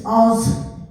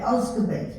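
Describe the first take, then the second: First: Osgodby carefully, with the d in the middle; spelled form. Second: Osgoby said quickly the local way, dropping the d; Osgoby, the village's own quick form without the d; local Yorkshire way. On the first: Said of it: "if you saw it spelt". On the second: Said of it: "but us, we called it". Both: Shown as a demonstration.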